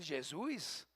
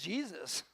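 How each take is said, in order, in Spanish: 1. El nombre tiene una pronunciación portuguesa. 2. El nombre tiene una pronunciación inglesa. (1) "y en Brasil Jesús" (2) "y en inglés Jesus"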